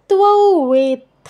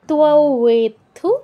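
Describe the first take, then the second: First: The word ends without any added u vowel. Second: The word ends with an added u vowel. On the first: The speaker calls it right. "ওয়েথু নয়, এটা তযুক্ত, ওয়েথ" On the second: The speaker calls it wrong. "আমি ভুলে উকার একটা উচ্চারণ করেছি"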